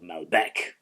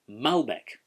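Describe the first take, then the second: First: The stress is on the second syllable. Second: The stress is on the first syllable. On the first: This is the local South American pronunciation. "it's gone local. It's sort of settled in with an altogether more Latin feel" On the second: This is the traditional French pronunciation. "The emphasis sits on that first syllable"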